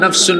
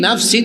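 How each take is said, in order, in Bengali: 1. শব্দটি u-n ধ্বনি দিয়ে শেষ হয়। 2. শব্দটি i-n ধ্বনি দিয়ে শেষ হয়। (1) "পড়ছে ইয়াউমা লা তামলিকু নাফসুন" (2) "এটাকে পড়ছে"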